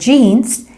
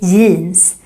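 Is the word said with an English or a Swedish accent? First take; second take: English; Swedish. First: The word is said with an English accent. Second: The word is said with a Swedish accent. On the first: "if you're wearing jeans" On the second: "then we say jeans. So basically the same word, but with a Swedish accent"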